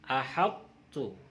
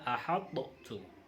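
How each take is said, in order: First: The first t merges straight into the second. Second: The first t is released with a bounce. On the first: The speaker calls it right. "bacanya ahattu" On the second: The speaker calls it wrong. "bukan ahattu"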